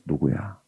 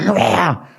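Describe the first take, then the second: First: It is said softly and gently up close. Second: It is called out loudly across a distance. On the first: The speaker comes close to start a talk. The speaker calls it right. "조용조용 이렇게 등을 투닥거리면서" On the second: The child is summoned from another room. The speaker calls it wrong. "아이들에게 뭔가 톤을 보내서"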